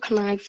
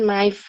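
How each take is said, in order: First: The word begins with an audible K sound. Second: The word begins with an N sound, K silent. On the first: The speaker calls it wrong. "Nggak nggak jarang loh orang bilang pisau tuh knife" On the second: The speaker calls it right. "tapi sebetulnya dibacanya mah knife gitu. Jadi silent K"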